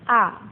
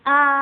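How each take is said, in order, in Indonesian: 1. Nada ringan dan pendek, tidak ditekan. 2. Nada tetap tinggi dan datar. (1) "Yang terakhir cingseng nada ringan" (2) "nada pertama itu datar tapi tinggi"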